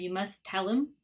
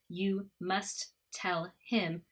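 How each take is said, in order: First: The words blend, one T, and H dropped. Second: Each word is said separately with both T sounds. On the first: "we're only saying the T once" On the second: "instead of just you must tell him"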